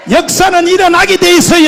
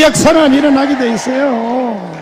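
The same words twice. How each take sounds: First: 역사는 일어나게 돼 있어요 shouted higher and louder; preaching shout. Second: Said in the usual way. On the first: Real, not acted. Preacher proclaiming to the congregation, 역사는 일어나게 돼 있어요 shouted. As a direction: cry out 역사는 일어나게 돼 있어요 at full force.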